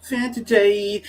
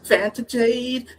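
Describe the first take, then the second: First: Said in the usual way. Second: "Fanta" said with an F, high and slow; Fanta Jade. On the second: Shown as a demonstration. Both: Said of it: "It's Vanta Jade".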